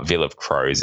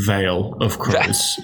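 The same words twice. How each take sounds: First: Veil with a short i, like vill. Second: Veil said slowly as vail, rhyming with sail; correct pronunciation of Veil. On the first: Real, not acted. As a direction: Veil pronounced vil, rhyming with fill. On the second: Shown as a demonstration. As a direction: Veil pronounced vail, spoken slowly and deliberately. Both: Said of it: "for those of you that pronounce words correctly".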